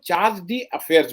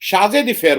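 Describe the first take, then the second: First: It is said with English sounds, 'charge dee affairs'. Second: It is said with French sounds, 'shazhe deffair'. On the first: This is how English speakers say it. "हम और आप जो अंग्रेजी जानते हैं उसमें हम लोग उसको चार्ज डी अफेयर्स बोलते हैं" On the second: This is the original French form of the word. "जो फ्रेंच वर्ड है उसको शाजे दिफेयर बोलते हैं लोग"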